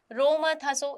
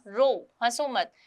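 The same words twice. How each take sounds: First: Said in the usual way. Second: "रो," then a clear pause before "हंसो मत"; pause after रो. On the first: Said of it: "इससे कुछ पता नहीं चल रहा". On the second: Shown as a demonstration. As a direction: break the phrase after "रो,". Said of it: "यहाँ विराम चिन्ह होने की वजह से".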